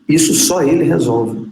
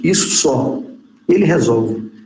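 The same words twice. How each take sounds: First: There is a pause after the word 'isso'. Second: There is a pause after the word 'só'. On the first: Only he, and nobody else, can solve this. "A outra não, dá um peso danado, muda completamente" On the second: Only this small thing is something he solves. "essa primeira é curiosa, né? Isso só, é pouca coisa, isso só, ele, ele resolve"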